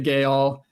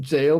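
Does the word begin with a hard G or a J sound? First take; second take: hard G; J sound. First: The word begins with a hard G sound. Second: The word begins with a J sound. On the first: "we're phonetically pronouncing it" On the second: "I guess this is just pronounced jail, possibly"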